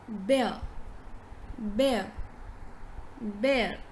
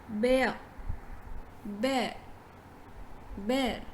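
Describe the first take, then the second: No difference in how they are said.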